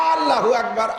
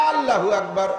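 No difference in how they are said.

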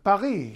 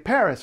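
First: It is pronounced with French sounds. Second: It is pronounced with English sounds. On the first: "unless we're trying to be fancy" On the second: "we say"

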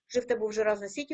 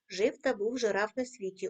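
First: The line is read at the fastest pace. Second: The line is read a bit faster. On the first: "кожного разу пришвидшуємо темп" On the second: "кожного разу пришвидшуємо темп"

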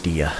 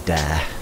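First: The vowel sounds like the one in fear. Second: The vowel sounds like the one in bear. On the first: The standard English pronunciation of the word. The speaker calls it right. "they actually meant deer" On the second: A Japanese speaker's pronunciation of the word. The speaker calls it wrong. "it was a translation thing or a mispronunciation"

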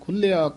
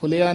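First: The word is said somewhat heavily, with extra weight. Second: The word is said lightly, without extra weight. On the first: The speaker calls it right. "ਖੁੱਲਿਆ ਥੋੜਾ ਭਾਰਾ ਬੋਲਣਾ ਹੈ" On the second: The speaker calls it wrong. "ਇਸਨੂੰ ਖੁੱਲਿਆ ਨਹੀਂ ਕਹਿਣਾ"

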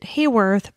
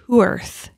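First: The name begins with a 'hay' sound. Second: The name begins with a 'who' sound. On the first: The speaker calls it wrong. "I pronounced it Hayworth" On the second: The speaker calls it right. "but it's Hooerth"

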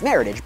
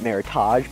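First: The ending rhymes with the word heritage. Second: The ending is pronounced in a French style. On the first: The speaker calls it right. "but it's maritage based on California winemakers' heritage" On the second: The speaker calls it wrong. "Sometimes we like to Frenchify that word and call it maritage"

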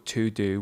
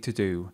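First: The word 'to' is said in full with a clear vowel. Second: The word 'to' is reduced with a weak schwa vowel. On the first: The speaker calls it wrong. "We don't say ... or to do" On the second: The speaker calls it right. "we say ... to do"

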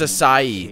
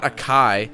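First: The word has an s sound in the middle. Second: The word has a hard k sound in the middle. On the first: The speaker calls it right. "It's Acai. That's how you say that word" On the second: The speaker calls it wrong. "That's not how you pronounce it. It's not Akai"

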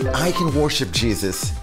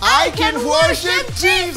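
First: It is said at a normal volume. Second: It is shouted as loudly as possible.

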